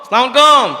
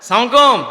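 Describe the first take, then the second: No difference in how they are said.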